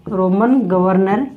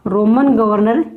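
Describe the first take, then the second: First: Roman governor drawn out slowly and lower; slow dictation. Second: Said in the usual way. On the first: Shown as a demonstration. Teacher dictating to students for their notes, slow and lower. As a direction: spell out Roman governor word by word, slow, for writing. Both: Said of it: "teacher repeats term for notes".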